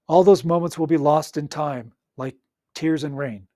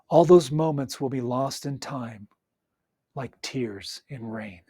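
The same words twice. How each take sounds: First: It is read flatly with no emotion. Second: It is read with feeling and expression. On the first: The speaker calls it wrong. "Reedy, no emotion, doesn't sound that great" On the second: The speaker calls it right. "Put emotion into it"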